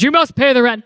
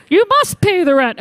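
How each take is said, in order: First: Low, sneering cartoon villain; menacing melodrama landlord; mustache twirling villain. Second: Cartoon villain. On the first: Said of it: "Oh, no, it goes". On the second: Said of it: "you're in a cartoon with this bag".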